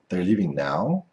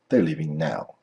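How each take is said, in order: First: The pitch rises at the end. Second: The pitch falls at the end. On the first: The speaker is asking because they don't know. "If your intonation goes up" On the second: The speaker knows and is telling someone. "if your intonation goes down"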